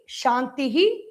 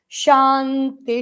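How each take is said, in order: First: The word ends with an added breathy 'hi' syllable. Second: The word ends without an added 'hi' syllable. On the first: "We have to take care to pronounce that visarga by shantihi" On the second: "When the visarga and sha join together, it becomes shanti"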